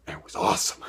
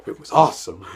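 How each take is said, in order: First: Breathy hushed whisper of awe. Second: Said out loud and emphatic; proud loud declaration after a whisper; louder. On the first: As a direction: whisper it like a secret. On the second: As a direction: bring the whisper up to full voice. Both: Shown as a demonstration.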